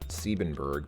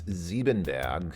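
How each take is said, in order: First: The name is said with an English pronunciation. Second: The name is said with a German pronunciation. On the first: "I think he would just say" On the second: "the German pronunciation is"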